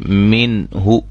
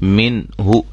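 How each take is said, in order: First: The n is fully and clearly articulated. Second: The same.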